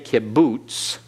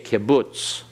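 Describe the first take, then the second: First: The last syllable has a long oo vowel. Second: The last syllable has a short u vowel. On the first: The speaker calls it wrong. "don't say kibbutz, all right? It's not boots" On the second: The speaker calls it right. "it's butz. It's that short U vowel"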